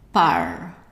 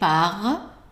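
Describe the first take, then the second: First: The R is not a gargling throat sound. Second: The R is a gargling sound in the throat. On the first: "in some parts of France, South France, and in Africa, it's pronounced R" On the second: "pronounced either as a gargling sound"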